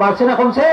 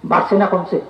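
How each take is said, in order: First: Prompting louder. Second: Said in the usual way. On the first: Real, not acted. Preacher urges congregation to answer louder, rousing call. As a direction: put the question again, rousing them. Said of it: "জুড়ে কইতে হবে". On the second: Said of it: "আস্তে আস্তে এখন শুনে".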